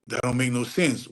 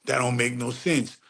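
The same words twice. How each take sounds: The two takes are said the same way.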